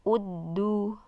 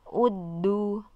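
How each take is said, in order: The two takes are said the same way.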